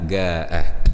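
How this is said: The word begins with a hard g sound.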